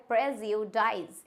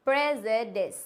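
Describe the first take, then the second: First: "प्रेजुडाइज" slowly, ending "-dize"; wrong pronunciation. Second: "प्रेजुडिस" ending in short "-dis"; correct pronunciation. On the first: Teacher shows a mistake, "प्रेजुडाइज" as slow prez-yoo-dize. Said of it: "प्रेजुडाइज नहीं होता है". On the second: Teacher corrects learners, "प्रेजुडिस" as prez-e-dis. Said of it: "हम English में pronounce करते हैं". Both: Shown as a demonstration.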